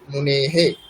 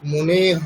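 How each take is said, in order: First: The word ends in h plus an echo vowel. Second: The word ends in a bare breathy h. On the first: The speaker calls it right. "উচ্চারণটা হবে মনে হে" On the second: The speaker calls it wrong. "নয়"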